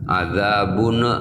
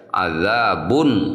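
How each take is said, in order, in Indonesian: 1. Huruf n terakhir ada sedikit pantulan tambahan. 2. Huruf n terakhir jelas, tanpa pantulan. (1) "jangan adzabun misalnya ada lebih ya, ada pantulan sedikit itu nggak boleh" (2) "harus terang, harus jelas ya, jangan sampai memantul"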